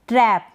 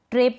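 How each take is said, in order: First: ट्रैप with short open "ae", as in "trap"; short, falling ट्रैप with open vowel; correct pronunciation. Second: ट्रैप closed to long "ay", like "trape"; wrong pronunciation. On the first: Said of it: "इसको पढ़ेंगे ट्रैप". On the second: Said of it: "नहीं पढ़ेंगे". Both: Shown as a demonstration.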